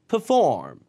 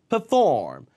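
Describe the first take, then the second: No difference in how they are said.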